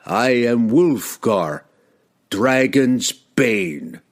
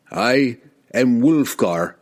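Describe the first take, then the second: First: Slow, ringing, triumphant reveal; triumphant proclamation. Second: Slow, proud, ringing declaration; proud proclamation. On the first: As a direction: unveil the title with relish. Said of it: "heightening the anticipation of his next proclamation". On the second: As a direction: announce yourself proudly. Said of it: "he proclaimed proudly". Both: Acted.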